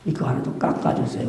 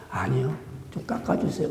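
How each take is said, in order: First: 1 weak patient plea. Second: 1 weak insistent plea. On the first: Cancer patient asking nurse softly. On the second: Patient insisting softly. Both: Pretend.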